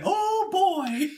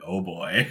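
First: It is said in a happy tone. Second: It is said in an unhappy tone.

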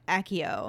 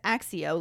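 First: The double C sounds like a single k. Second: The double C sounds like ks, as in accident. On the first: This is how the films pronounce it. "I know the movies say Accio" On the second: This is how the speaker reads it. "like accident, with the double C"

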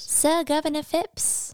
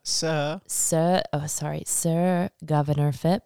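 First: It is said in a put-on pleading beggar voice. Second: It is said in a plain, normal voice.

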